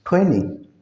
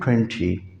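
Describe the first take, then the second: First: American style, the T after N is silent. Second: The T after N is clearly pronounced.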